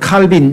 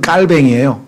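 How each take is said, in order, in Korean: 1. 이 이름은 'bin' 소리로 끝나요. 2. 이 이름은 비음 'aeng' 소리로 끝나요. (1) "영어식으로 발음을 하죠" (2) "불어로 발음하면"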